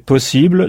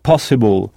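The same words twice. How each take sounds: First: The stress is on the last syllable. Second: The stress is on the first syllable. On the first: "le mot français « possible »" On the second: "on n'insiste pas sur le « i » comme en français"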